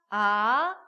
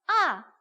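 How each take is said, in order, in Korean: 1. 음높이가 중간에서 높게 올라갑니다. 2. 음높이가 높은 데서 낮은 데로 급하게 떨어집니다. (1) "이" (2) "사성까지 있어요"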